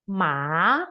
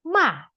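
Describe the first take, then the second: First: The pitch dips down and then rises again. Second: The pitch falls sharply from high to low. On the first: "nada ketiga dari atas ke bawah ke atas lagi" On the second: "nada keempat, nada terakhir, ... seperti orang marah ... dari atas ke bawah"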